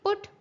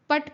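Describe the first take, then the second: First: The vowel sounds like oo in book. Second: The vowel sounds like uh in cup. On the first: The speaker calls it right. "इसको आप कैसे pronounce करेंगे? पुट" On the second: The speaker calls it wrong. "पट पढ़ देंगे। नहीं, ऐसा नहीं होगा"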